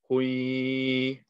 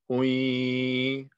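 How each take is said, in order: First: The ya is held with a nasal hum. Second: The same.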